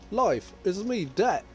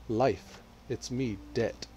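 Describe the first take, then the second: First: It is said in a put-on British accent. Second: It is said in the speaker's ordinary accent.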